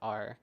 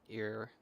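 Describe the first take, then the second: First: The syllable sounds like the letter R. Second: The syllable sounds like the word 'ear'. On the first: The speaker calls it right. "like R" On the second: The speaker calls it wrong. "or ear"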